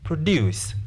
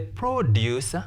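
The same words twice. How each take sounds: First: The stress is on the second syllable. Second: The stress is on the first syllable. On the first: It is a verb meaning to make. "Infinitive to precedes a verb. Therefore, we stress the second syllable" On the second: It is a noun meaning farm goods. "we stress which syllable? The first syllable"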